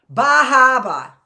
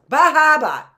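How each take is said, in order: First: Boston accent, loud, high and drawn out. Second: Punchy loud Boston accent, higher pitch. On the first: Showing off her Boston accent to viewers, loud and slow. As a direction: belt a broad Boston accent. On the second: Repeating her Boston accent demo for viewers, loud. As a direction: hit the Boston accent hard. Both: Shown as a demonstration. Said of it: "That's my Boston accent".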